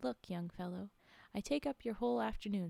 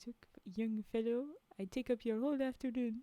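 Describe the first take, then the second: First: It is read in a plain voice. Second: It is read in a French accent. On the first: "Oh wait, I was supposed to say" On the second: "He didn't sound like it's a French accent"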